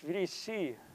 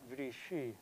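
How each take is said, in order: First: The middle consonant is a plain s sound. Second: The middle consonant is a hushing sh sound. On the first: This is the standard modern Greek form. The speaker calls it right. "It's Vrisi" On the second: This is the older village form. The speaker calls it wrong. "not Vrishi"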